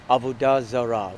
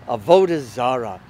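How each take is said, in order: First: It is said with a plain Hebrew pronunciation. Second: It is said with a Yiddish inflection. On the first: "what we call in Hebrew" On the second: "if you put a more more of a Yiddish inflection on it"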